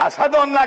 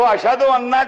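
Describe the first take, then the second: First: The consonant is pronounced as an 's' sound. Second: The consonant is pronounced as a 'sh' sound. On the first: "वो अशहदु अन्ना को असहदु अन्ना कहते हैं" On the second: "शीन नहीं निकलता सही"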